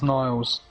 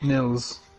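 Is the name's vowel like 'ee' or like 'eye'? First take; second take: eye; ee. First: The vowel sounds like 'eye'. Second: The vowel sounds like 'ee'. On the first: The speaker calls it wrong. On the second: The speaker calls it right.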